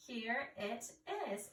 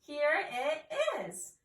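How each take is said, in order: First: Said in the usual way. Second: Louder, drawn-out exclamation; excited. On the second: Shown as a demonstration. Teacher shows how to exclaim at an exclamation point, excited. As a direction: exclaim it with excitement, slow and loud. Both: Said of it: "We need to be excited".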